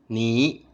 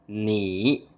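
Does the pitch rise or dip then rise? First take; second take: rise; dip-rise. First: The pitch rises from mid to high. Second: The pitch dips low and then rises. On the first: "second tone" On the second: "third tone"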